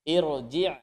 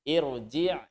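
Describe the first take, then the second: Both takes have the same delivery.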